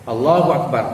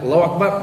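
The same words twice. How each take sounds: First: The vowel in Allah is held for two beats. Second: No vowel is lengthened anywhere in the phrase. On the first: The speaker calls it right. "maknanya dua harakat" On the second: The speaker calls it wrong. "tak ada mad ni, ... bukan gitu"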